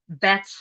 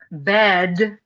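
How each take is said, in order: First: The word ends in a voiceless t sound. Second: The word ends in a voiced d sound. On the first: "German speakers say bet" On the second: "written with a d sound"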